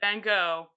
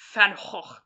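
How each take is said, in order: First: The name is pronounced the usual English way. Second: The name is pronounced the Dutch way. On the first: "you can and should pronounce it Van Gogh" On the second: "according to the Dutch, pronounced Van Gogh"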